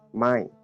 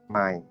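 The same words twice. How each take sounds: First: The tone falls across the word. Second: The tone stays low across the word. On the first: The word means not. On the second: The word means new.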